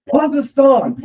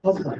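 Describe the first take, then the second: First: Higher and louder, an insistent mock demand; "Pause the song" pushed up high and loud like an annoyed kid; a dad imitating his daughter's angry shushing, high and loud; imitated angry daughter. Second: Said in the usual way. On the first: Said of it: "really angry, aggressive". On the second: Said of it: "Rosie goes".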